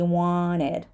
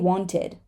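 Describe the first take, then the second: First: The T sound after the N is dropped. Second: The T sound after the N is pronounced. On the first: "a lot of people are going to say wanted" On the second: "You can say wanted"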